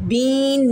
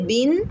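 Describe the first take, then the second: First: बीन with a long, dragged ee; overstretched BEEN. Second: बिन with a short i, not stretched; short vowel BIN. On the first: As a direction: wrongly stretch the vowel in बीन. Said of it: "ना बन जाए". (बीन की ई खींचकर ग़लत पढ़ना) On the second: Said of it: "बीन ना बन जाए". (बिन की इ छोटी रखकर पढ़ना) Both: Shown as a demonstration.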